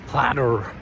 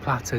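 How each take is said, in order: First: It is said in the local Milwaukee accent. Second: It is said in the speaker's own non-local accent. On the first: The local staff would understand it. "instead of platter" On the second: The local staff did not understand it. "I was saying platter"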